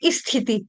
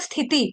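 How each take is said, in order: First: An extra i vowel is added to the word. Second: The word starts directly with the s sound. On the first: The speaker calls it wrong. "ई की मात्रा अपनी तरफ से लगा देंगे" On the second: The speaker calls it right. "जैसे बोला जाता है स्थिति"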